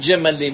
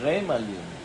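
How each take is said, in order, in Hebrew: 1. העיצור הראשון הוא צליל j. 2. העיצור הראשון הוא gh רכה.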